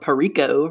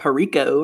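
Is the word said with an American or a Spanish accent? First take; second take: American; American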